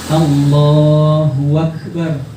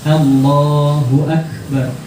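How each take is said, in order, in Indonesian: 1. Bunyi w menyambung Allahu ke Akbar. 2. Ada jeda hamzah yang tegas sebelum Akbar. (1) "Kan ada waw" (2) "Hamzah itu huruf yang tegas"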